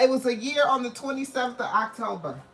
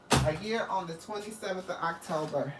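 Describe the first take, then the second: First: Excited first take. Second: Softer repeat. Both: Real, not acted.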